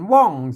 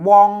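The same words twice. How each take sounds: First: The syllable has a falling tone. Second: The syllable has a mid tone. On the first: "เสียงโทปกติ" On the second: "สามัญนะครับ"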